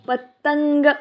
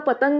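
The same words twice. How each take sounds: First: The word is said with a punchy, spicy flourish. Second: The word is said plainly, without extra emphasis. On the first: "तो पतंग असा आहे. असा काही ठसकेबाज गायलाय" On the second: "तो नुसता पतंग नाहीये"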